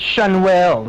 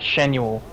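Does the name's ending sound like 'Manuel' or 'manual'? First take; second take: Manuel; manual. First: The name ends like the name Manuel. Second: The name ends like the word manual. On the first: The speaker calls it right. "It's Shanuel, ... like a guy named Manuel" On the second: The speaker calls it wrong. "not Shanuel ... not like manual transmission"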